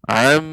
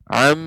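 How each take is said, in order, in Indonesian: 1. Bunyi bergema bebas melalui hidung yang terbuka. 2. Bunyi bergema bebas melalui hidung yang terbuka.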